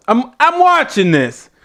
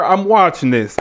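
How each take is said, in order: First: WATCHING pitched high and insistent; emphatic repeat. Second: Said in the usual way. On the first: Real, not acted.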